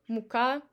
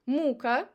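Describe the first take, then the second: First: Мука stressed on КА; stress on last syllable. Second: Мука stressed on МУ; stress on first syllable. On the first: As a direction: say мука as moo-KA, meaning flour. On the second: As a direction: say Мука as MOO-ka, meaning torture. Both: Shown as a demonstration.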